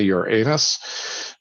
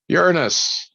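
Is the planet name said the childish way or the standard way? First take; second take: childish; standard. First: The name is said the childish joke way. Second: The name is said the standard way.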